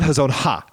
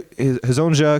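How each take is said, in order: First: The last syllable starts with a breathy h. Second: The last syllable has no breathy h. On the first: The speaker calls it wrong. "You put you put the ha in that. You put a laugh in that" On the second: The speaker calls it right. "because that's what he says"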